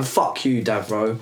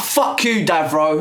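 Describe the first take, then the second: First: Flat repeat. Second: Heated shout. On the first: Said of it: "repeats the insult calmly". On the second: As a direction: spit the insult out. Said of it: "heated first take". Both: Real, not acted.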